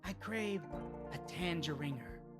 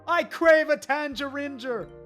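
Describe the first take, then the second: First: It is in a hooded-creature put-on voice. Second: It is in a Drago-style put-on voice. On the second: "I'm giving him a Caldor Drago voice"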